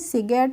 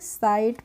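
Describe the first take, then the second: First: The 'gh' is sounded as a hard g. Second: The 'gh' is silent, giving an 'eye' vowel. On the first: The speaker calls it wrong. "सिगेट नहीं पढ़ते हैं" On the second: The speaker calls it right. "साइट पढ़ते हैं"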